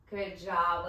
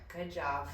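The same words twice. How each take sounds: First: Upbeat praise. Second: Lower, softer encouragement; calm praise. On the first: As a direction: cheer them on mid-set. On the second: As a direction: gently praise while cooling down. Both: Real, not acted.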